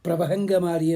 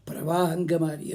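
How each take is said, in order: First: ప్రభహంగమారి with bh, garbling ప్రవాహంగ; mock wrong pronunciation. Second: ప్రవాహంగమారి with a clear v sound, plainly said; correct pronunciation. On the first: Teacher imitating a Hindi singer's botched Telugu word. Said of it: "వాడు హిందీ వాడు తెలుగు పాట పాడాడు". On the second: Shown as a demonstration. Teacher correcting the singer's mistake for students. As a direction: give ప్రవాహంగమారి its proper ప్ర-వా-హం. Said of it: "అని ఉంటుంది".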